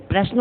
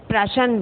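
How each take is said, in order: First: Said in the usual way. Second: प्रश्न with an extra vowel, "pra-shan"; mispronounced प्रश्न. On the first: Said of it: "प्रश्न होता है ना". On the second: Shown as a demonstration. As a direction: break up the final cluster of प्रश्न into "shan". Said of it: "प्रश्न तो होता नहीं है". (प्रश्न को गलत ढंग से "प्रशन" बोलना)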